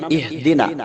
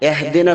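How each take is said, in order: First: The first vowel sounds like 'i'. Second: The first vowel sounds like 'e'. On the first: The speaker calls it right. "അവിടെ കസ്റയാണുള്ളത്" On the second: The speaker calls it wrong. "കൂടുതൽ ആളുകൾക്കും സംഭവിക്കുന്ന ഒരു പിഴവാണ് എഹ്ദിന"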